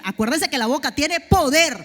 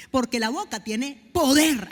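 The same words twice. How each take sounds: First: Louder, punching poder; loud reminder. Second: Slow, weighty, falling on poder; slow emphasis. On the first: Preacher reminds the church the mouth has power, loud. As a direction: call it out so they remember poder. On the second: Preacher tells the church the mouth has power, slow and weighty. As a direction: lay down each word slowly. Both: Shown as a demonstration.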